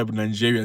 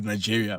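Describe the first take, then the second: First: Second "Nigeria" said as nan-JEE-ria; Nigerian-style pronunciation. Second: Said in the usual way. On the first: Retold or imitated. Host puzzled at Nigerians' way, "Nigeria" said Nan-jiria. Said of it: "I don't know why Nigeria say Nigeria". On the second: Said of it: "not Nigeria".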